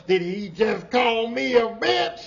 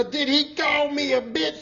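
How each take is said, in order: First: Louder, slow indignant challenge; imitating the offended coworker, louder and slow; sassy indignant woman. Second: High, slow indignant challenge; imitating an offended coworker, pitched way up; sassy indignant woman. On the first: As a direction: drag it out with full attitude. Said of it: "That's how she was". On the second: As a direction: lean into the sass of the question. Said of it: "She had that vigor".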